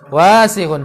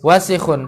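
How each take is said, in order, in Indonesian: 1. Vokal pertama dibaca panjang. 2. Vokal pertama dibaca pendek. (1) "wasihun itu kadang ada panjangnya. Wasihun, salah" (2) "wasihun pendek"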